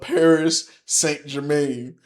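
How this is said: The name is said in an American English accent. "in the American English accent is uh"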